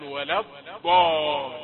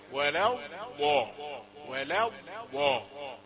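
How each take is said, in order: First: ولا الضال with ض stopped hard, slowly; wrong hard dad. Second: ولا الضاء with ض soft and drawn out slowly; soft dad. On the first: Teacher showing the mistake to avoid in ولا الضال. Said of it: "لا تقل ولا الضال". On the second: Teacher modelling the correct soft ض in ولا الضاء. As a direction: let ض flow soft, not stopped, in ولا الضاء. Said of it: "خليها طرية كده". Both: Shown as a demonstration.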